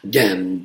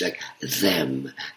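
First: The word begins with a hard 'd' sound. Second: The word begins with a soft 'th' sound. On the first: The character has little schooling. "if I'm portraying a woman next door who's gone to school only 4 years" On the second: The character is well educated. "if I'm playing a educated person, I would love to pronounce that H, like TH"

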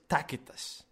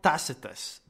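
First: The middle consonant is a hard k sound. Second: The middle consonant is a soft s sound. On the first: The speaker calls it right. "C is K forever, always, in classical language" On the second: The speaker calls it wrong. "Tacitus is a terrible, terrible, terrible wrong pronunciation"

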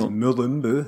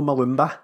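First: The name ends with an 'oo' sound. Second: The name ends with an 'ah' sound. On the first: The speaker calls it right. "there are no A's. Or O's in that name" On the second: The speaker calls it wrong. "There's no Malumba"

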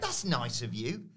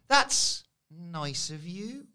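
First: It sounds warm and sincere. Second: It sounds nasty and suspicious.

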